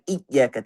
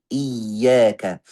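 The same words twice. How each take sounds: First: Iyyaka with the ya too light, no doubling; wrong iyyaka. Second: Slow iyyaka, doubled ya held firm; correct iyyaka. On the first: Teacher shows the wrong reading, ya not doubled. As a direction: iyyaka said without shaddah. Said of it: "Jangan iyyaka". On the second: Teacher shows the right reading, slow and doubled. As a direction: iyyaka with full shaddah on ya. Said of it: "tapi iyyaka". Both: Shown as a demonstration.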